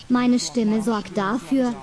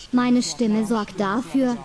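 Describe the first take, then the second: No difference in how they are said.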